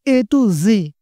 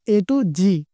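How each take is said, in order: First: The last word starts with a z sound. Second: The last word starts with a j sound. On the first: The speaker calls it right. "ये जी ... जी न्यूज वाला जी" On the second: The speaker calls it wrong. "Not"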